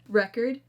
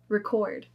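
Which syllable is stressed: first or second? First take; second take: first; second. First: The stress is on the first syllable. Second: The stress is on the second syllable. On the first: It is used as a noun. "we're going to do the noun" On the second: It is used as a verb. "then we're going to do the verb"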